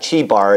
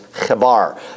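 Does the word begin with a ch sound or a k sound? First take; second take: ch sound; k sound. First: The word begins with a ch sound. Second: The word begins with a k sound. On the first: The speaker calls it wrong. "It's not Chebar" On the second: The speaker calls it right. "kind of K, with a K"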